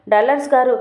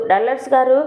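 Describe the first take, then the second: First: Said in the usual way. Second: Calling out his name. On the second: Acted. Indu calls Dallars to wake him, a mild mock shout. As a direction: call up to wake Dallars, only half raised. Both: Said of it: "అంటూ అరుస్తూ ఉంటే".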